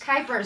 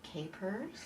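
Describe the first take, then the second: First: The first syllable sounds like 'kite'. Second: The first syllable sounds like 'cape'. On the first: The speaker calls it right. "Rhymes with hypers" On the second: The speaker calls it wrong. "I said it wrong"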